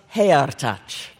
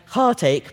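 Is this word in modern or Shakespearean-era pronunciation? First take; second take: Shakespearean; modern. First: It is said in older, Shakespearean-era pronunciation. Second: It is said in modern English pronunciation. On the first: "how that sounded to Shakespeare's time" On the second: "Heartache becomes heartache"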